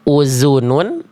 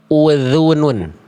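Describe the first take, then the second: First: The middle consonant is a buzzing z sound. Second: The middle consonant is a voiced th sound. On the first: The speaker calls it wrong. "Nggak kita baca uzunun" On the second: The speaker calls it right. "tapi kita baca uzunun"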